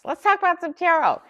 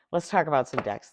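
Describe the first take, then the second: First: Much higher, louder, gleeful lilt; light up as the fun topic starts; excited sing-song. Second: Said in the usual way. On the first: Real, not acted. Host cheerfully introducing the tarot topic, excited sing-song.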